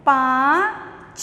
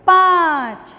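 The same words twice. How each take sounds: First: पाँच stretched very slowly with a nasal आँ; slow read-aloud demo. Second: पाँच called out loud and high; loud read-aloud. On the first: Teacher slowly modelling पाँच for children. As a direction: draw out पाँच slowly through the nose. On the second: Teacher calling out पाँच for the class to repeat. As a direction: call out पाँच clearly. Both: Shown as a demonstration. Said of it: "बोलकर पढ़िए".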